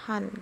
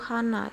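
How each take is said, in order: First: The word ends in a consonant sound. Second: The word ends in a vowel sound. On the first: "hanya disebut han gitu" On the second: "contoh yang nomor satu hana"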